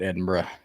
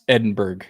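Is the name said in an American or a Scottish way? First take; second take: Scottish; American. First: The name is said with a Scottish pronunciation. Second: The name is said with an American pronunciation. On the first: "But it's Scotland, so they call it Edinburgh" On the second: "it should be pronounced Edinburgh because this is America"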